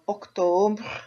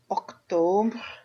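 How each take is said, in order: No difference in how they are said.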